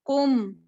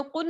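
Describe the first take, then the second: First: कुम with lips closed on a held m; n turned to m. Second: कुन ending on a short n; plain n ending. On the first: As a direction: hum the final m of कुम. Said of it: "मीम से". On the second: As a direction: say कुन quickly with a clear n. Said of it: "कुन नहीं पढ़ा". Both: Shown as a demonstration.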